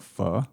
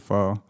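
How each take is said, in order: First: It is said with a Vietnamese accent. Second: It is said with a plain English accent. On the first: "the more the authentic accent to it" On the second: "I just say pho"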